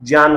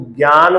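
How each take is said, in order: First: जान as "jyan", low, j opening; correct pronunciation. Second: ज्ञान as "gyan", hard g; popular pronunciation. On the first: Teacher giving the true pronunciation, low "jyan". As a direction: say जान with j in place of g. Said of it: "सही मायने में तो इसका उच्चारण". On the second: Teacher quoting how students usually say it, "gyan". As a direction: open ज्ञान with a "gy" sound. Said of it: "गे बोलने का प्रचलन चल पड़ा है". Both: Shown as a demonstration.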